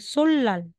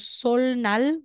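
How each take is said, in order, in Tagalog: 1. Ang mga katinig sa gitna ay binibigkas na l at l. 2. Ang mga katinig sa gitna ay binibigkas na l at n. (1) "magiging sollal" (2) "Sasabihin mong solnal"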